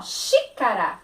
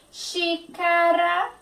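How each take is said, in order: First: Said in the usual way. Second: Xícara drawn out, XI as shi; slow clear Xícara. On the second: Shown as a demonstration. Teacher to pupils, Xícara slow with shi. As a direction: say Xícara slowly, stressing the shi. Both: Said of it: "juntei o som do X com I".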